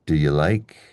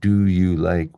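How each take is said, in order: First: The stress falls on the word like. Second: The stress falls on the word do. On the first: The speaker calls it right. "we say" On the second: The speaker calls it wrong. "instead of saying"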